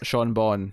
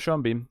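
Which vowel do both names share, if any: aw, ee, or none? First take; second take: aw; none. First: Both names share an aw vowel. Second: The two names have different vowels. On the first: "Either that or Sean, Sean Bon" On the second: "looks like it should rhyme, but it doesn't"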